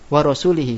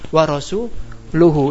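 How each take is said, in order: First: The word ends with the vowel i, as -lihi. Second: The word ends with the vowel u, as -luhu. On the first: God is free of the polytheists and of the messenger. The speaker calls it wrong. "dibacanya kasrah" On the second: The messenger too is free of the polytheists. The speaker calls it right. "Ini bacaan yang benar"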